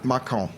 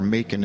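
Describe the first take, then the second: First: The word is said with a French pronunciation. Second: The word is said with a Southern American pronunciation. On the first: It names the French wine region. "from France" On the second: It names the town in Georgia. "Or Macon if you're from Georgia"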